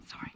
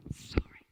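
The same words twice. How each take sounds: First: Said in the usual way. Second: Whispered apology. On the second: Real, not acted. Apology repeated, second take whispered.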